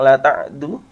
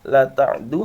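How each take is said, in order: Both takes have the same delivery.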